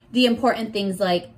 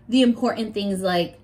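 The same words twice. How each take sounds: The two takes are said the same way.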